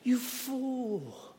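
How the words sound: It sounds gentle and compassionate.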